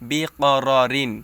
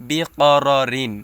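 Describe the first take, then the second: The two takes are said the same way.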